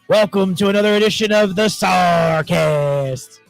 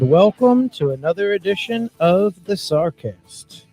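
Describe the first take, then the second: First: It is said loudly with lots of energy. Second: It is said calmly with low energy. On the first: The speaker calls it right. "Where I just had like mad energy?" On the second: The speaker calls it wrong. "I'm a little upset at that intro"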